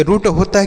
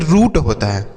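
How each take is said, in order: First: रूट with a short, quick u. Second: रूट with a long oo. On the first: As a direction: cut the vowel of रूट short, like "rut". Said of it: "छोटाऊ की मात्रा लगाएंगे". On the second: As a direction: stretch the vowel of रूट. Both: Shown as a demonstration.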